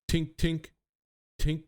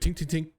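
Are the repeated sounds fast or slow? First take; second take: slow; fast. First: The sounds come slowly, with gaps between them. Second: The sounds come quickly, one right after another. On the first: The weapon now fires at a lower rate. "like they slowed down its rate of fire" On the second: The weapon used to fire at a high rate. "before it used to be very rapid"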